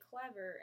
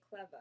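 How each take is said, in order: First: The final R sound is pronounced. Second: The final R sound is dropped. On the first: This is the American way. "We say clever" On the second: This is the English way. "they say clever"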